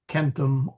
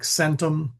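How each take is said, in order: First: The word begins with a k sound. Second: The word begins with an s sound. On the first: "It is either hard" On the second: "a C is never a um, like an S sound"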